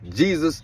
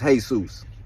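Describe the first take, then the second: First: The name is pronounced the English way. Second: The name is pronounced the Spanish way.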